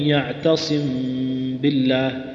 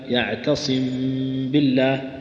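First: The m is lightly closed with a soft nasal hum. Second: The same.

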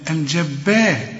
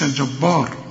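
First: The b sound is thin and light. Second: The b sound is thickened and heavy. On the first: The speaker calls it right. "الراء بس هي المفخمة" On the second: The speaker calls it wrong. "ما تقولش الجبار"

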